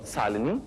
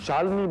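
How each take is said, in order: First: The name begins with a plain 's' sound. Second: The name begins with an 'sh' sound. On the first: "शालिनी बनी सालिनी" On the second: "श को स बोलते हो"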